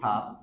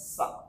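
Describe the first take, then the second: First: The word is said with a full vowel. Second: The word is said with a reduced vowel. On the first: "আমরা যেটাকে বলি স্যার" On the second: "sound হয় সা"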